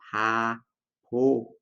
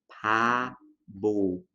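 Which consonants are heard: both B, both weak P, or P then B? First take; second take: both weak P; P then B. First: Both consonants are pronounced as weak P sounds. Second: A weak P begins it, B between vowels. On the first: "com dois sons de P fraco" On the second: "a gente tem a tendência de falar pabo"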